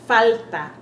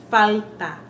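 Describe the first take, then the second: The two takes are said the same way.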